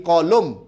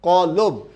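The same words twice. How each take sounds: Both takes have the same delivery.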